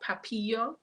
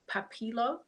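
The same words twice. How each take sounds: First: The L sounds in the name are silent. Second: The L sounds in the name are pronounced.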